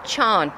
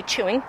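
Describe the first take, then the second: First: "Sean" said as one syllable, "chawn"; country "chawn" for chewing; Kerry pronunciation. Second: Said in the usual way. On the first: Shown as a demonstration. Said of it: "and they say". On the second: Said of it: "So we say".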